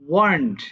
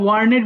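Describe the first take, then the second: First: The word is said as one syllable. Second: The word is said as two syllables. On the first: The speaker calls it right. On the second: The speaker calls it wrong.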